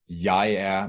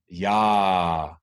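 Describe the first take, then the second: First: It is said as two separate syllables. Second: It is merged into one rising syllable.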